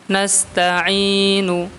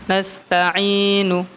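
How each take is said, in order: No difference in how they are said.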